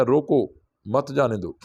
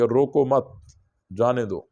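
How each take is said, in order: First: Group it as روکو / مت جانے دو; pause after روکو. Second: "روکو مت" run together, pause, then "جانے دو"; group it as روکو مت / جانے دو; pause after مت. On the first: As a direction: move the break before مت, joining it to جانے دو. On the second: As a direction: hold the break until after مت, then let جانے دو fall. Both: Shown as a demonstration. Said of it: "وقف کو آگے پیچھے کرنے سے معنی".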